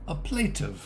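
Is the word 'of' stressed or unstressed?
unstressed. The word 'of' is weak and unstressed. The speaker calls it right. "it's the nouns that are stressed"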